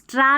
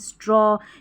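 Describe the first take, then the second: First: The vowel is an open unrounded 'ah'. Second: The vowel is a rounded 'aw'. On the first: The speaker calls it wrong. "इसको स्ट्रा नहीं" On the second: The speaker calls it right.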